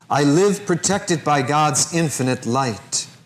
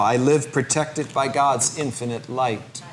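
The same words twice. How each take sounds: First: It is said in a strong, loud voice. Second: It is said in a softer, quieter voice. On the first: "first in a strong voice taking control of the conscious mind" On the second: "A little softer now"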